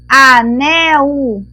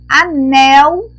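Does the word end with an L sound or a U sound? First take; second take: U sound; L sound. First: The word ends with a U sound. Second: The word ends with an L sound. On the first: "depois com U" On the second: "primeiro estou completando com L"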